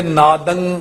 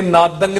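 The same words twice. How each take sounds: First: ਨਾਦੰ ending in a nasal, without g. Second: ਨਾਦੰਗ with a hard g closing it; mistaken hard g ending. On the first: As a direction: let ਨਾਦੰ close on the nasal alone. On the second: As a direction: sound the g after the nasal in ਨਾਦੰਗ. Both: Shown as a demonstration. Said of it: "ਇਹ ਨਾਦੰਗ ਨਹੀਂ ਕਹਿਣਾ".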